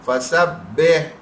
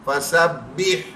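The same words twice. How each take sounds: Both takes have the same delivery.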